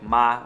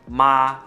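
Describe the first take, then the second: First: It is said light and quick, without tone. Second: It is said with the first tone. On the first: It turns a sentence into a question. "just like light and quick" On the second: It means mother. "the first tone"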